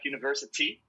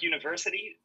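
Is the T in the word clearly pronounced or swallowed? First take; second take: clear; swallowed. First: The T sound is clearly and fully pronounced. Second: The T sound is swallowed, barely heard. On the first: "In UK it's more like university. It's like slightly more" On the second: "where you like kind of like swallow the T"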